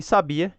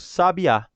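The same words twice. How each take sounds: First: "sabia" stressed on the middle syllable, sa-BI-a. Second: "sabiá" stressed on the last syllable, sa-bi-Á; stress on final syllable. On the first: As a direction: put the weight on BI in "sabia". ("sabia" com a tônica no BI, sa-BI-a) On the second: ("sabiá" com a tônica no Á final, sa-bi-Á) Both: Shown as a demonstration. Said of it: "a acentuação gráfica".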